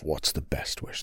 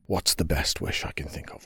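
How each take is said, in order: First: Unvoiced whisper to himself; thinking aloud under his breath; murmured to himself as he ponders; whispered musing. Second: Said in the usual way.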